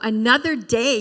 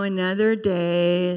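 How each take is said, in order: First: The voice sounds bright and cheerful. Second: The voice sounds weary and gloomy. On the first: The day ahead is welcomed with gratitude. The speaker calls it right. "No, another day, yay" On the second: The day ahead feels like a chore. The speaker calls it wrong. "oh, another day, another dollar"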